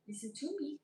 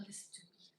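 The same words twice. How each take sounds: First: Said in the usual way. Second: Unvoiced, hushed plea; whispered listen to me. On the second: Real, not acted. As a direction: whisper it urgently.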